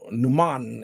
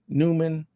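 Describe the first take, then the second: First: The name is said with German vowels. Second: The name is said with English vowels. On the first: The speaker calls it right. "it's kind of like a German" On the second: The speaker calls it wrong. "Some people say"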